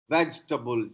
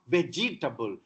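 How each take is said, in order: First: No vowel is sounded between the j and t. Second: A vowel is sounded between the j and t. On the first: The speaker calls it right. "Ja and ta together, no vowel" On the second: The speaker calls it wrong. "not vegetable"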